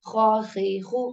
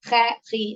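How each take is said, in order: First: Heavy, rounded ഖ sounds in "ഖ, ഖി, ഖു"; heavy letter. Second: "ഖ, ഖി" said thin and light, not heavy; the incorrect light version of "ഖ, ഖി"; wrong, light ഖ. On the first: Teacher shows students the proper heavy ഖ, full and throaty. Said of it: "heavy letters". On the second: Teacher shows students the wrong light way to say a heavy letter. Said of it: "ഖു അങ്ങനെയല്ല". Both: Shown as a demonstration.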